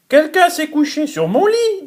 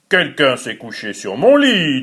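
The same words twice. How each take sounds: First: It is said in a medium voice. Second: It is said in a big, deep voice.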